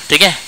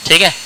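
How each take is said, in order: No difference in how they are said.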